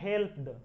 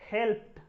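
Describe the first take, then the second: First: The word ends with a d sound. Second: The word ends with a t sound. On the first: The speaker calls it wrong. "इसे अक्सर लोग पढ़ देते हैं हेल्प्ड, ड, ये गलत है" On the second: The speaker calls it right. "यहां पर इसका उच्चारण क्या है? ट। इसे हम लोग पढ़ेंगे हेल्प्ड"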